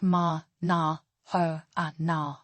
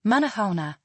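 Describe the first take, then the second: First: "ma, na, ho, a, na" as separate, drawn-out syllables; syllable-by-syllable pronunciation. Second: Said in the usual way. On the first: Shown as a demonstration. Teacher breaking down how are you in Malagasy, syllable by syllable. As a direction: break up "ma, na, ho, a, na" with small pauses. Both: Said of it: "is pronounced".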